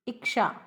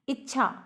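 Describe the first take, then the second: First: इच्छा turned into "iksha"; over-refined इच्छा with k plus sh; affected इच्छा. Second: इच्छा with a "chh" sound, "ich-chha"; plain correct इच्छा, no k; standard इच्छा. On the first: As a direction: put a "ksh" in the middle of इच्छा. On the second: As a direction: say इच्छा with tch in the middle. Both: Shown as a demonstration. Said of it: "बन बन के बोलते हैं".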